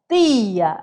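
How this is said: It is said with a northeastern Brazilian accent. "e do nordeste, vai falar tia"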